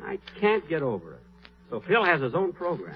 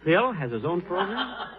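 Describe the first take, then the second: First: Muttered brooding. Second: Surprised question. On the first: Brooding over Phil's news. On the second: Learns Phil's news. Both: Acted.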